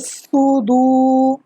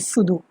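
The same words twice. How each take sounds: First: The first s sound is heavy and thick. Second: The first s sound is light and thin. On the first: The speaker calls it right. "how to read with a uh, heavy voice is fi sudu" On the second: The speaker calls it wrong. "not sudu"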